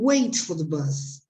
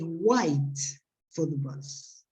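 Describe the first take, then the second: First: The vowel in 'wait' sounds like 'ay'. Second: The vowel in 'wait' sounds like 'eye'. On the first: This is how people outside Australia say it. "they don't wait for the bus" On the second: This is how people from Australia say it. "they wait for the bus"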